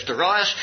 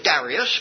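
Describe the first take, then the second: First: Darius with stressed middle, duh-RYE-us; David's pronunciation. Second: Darius with stress up front, DARR-ee-us; alternative pronunciation. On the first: Preacher following a colleague's way, Darius as duh-RYE-us. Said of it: "I notice David says Darius". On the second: Preacher citing how some pronounce it, Darius as DARR-ee-us. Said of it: "some pronounce it Darius". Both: Shown as a demonstration.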